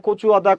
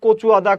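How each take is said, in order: No difference in how they are said.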